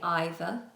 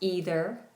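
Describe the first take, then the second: First: It is said with a British vowel. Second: It is said with an American vowel. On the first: "Either and neither in the U K are pronounced that way" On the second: "In American English, they are pronounced either and neither"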